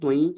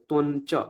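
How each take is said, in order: First: The nasal before 'ca' is a palatal 'ñ'. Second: The nasal before 'ca' is a plain 'n'. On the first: "actually ত্বং চ এরকমই করা উচিত" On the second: "অনেকে ত্বন চ এরকম নকারও বলে"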